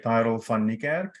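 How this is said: The name is said with an Afrikaans pronunciation. This is how the name is said in its home language. "in uh, Afrikaans, you would probably say"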